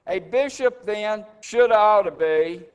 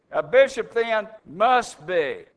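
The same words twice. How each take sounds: First: "should" lifted with a rising tune, as a deliberate misreading; wrong reading. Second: "must" stressed with a firm falling tune; correct reading. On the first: Preacher misquotes the verse to his congregation, rising on "should". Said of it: "That's not what that says". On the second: Preacher corrects the verse for the congregation, firm stress on "must". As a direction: land hard on "must", firm and final. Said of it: "it's emphatic". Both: Shown as a demonstration.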